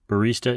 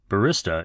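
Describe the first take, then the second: First: The word is said the common American way. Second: The word is said the common British way. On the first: "a common pronunciation in the United States and Italy" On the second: "the more common usage in the U K and Western Europe"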